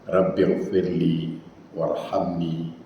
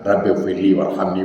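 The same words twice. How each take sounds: First: The long vowels are held for their full length. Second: The long vowels are clipped and said quickly. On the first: The speaker calls it right. "Yang betul" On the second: The speaker calls it wrong. "Jangan ... Hilang tajwid itu"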